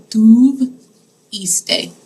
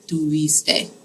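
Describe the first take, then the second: First: Drawn out slowly, syllable by syllable; teacher modelling tuviste very slowly; slow model word. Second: Said in the usual way. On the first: Shown as a demonstration. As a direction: spell it out with your voice: tu-vis-te, slowly. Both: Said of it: "I put iste on the end of it".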